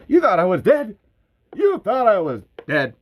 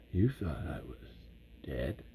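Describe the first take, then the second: First: Much higher and louder, punching YOU; triumphant shout. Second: Whispered, dropping away on dead; conspiratorial whisper. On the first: Bert gloats to viewers who thought him dead, triumphant shout. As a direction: crow it at the viewers, gleeful. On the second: Bert whispers his secret survival to the audience. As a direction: let them in on the secret, hushed. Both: Retold or imitated. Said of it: "like, Southern for Bert".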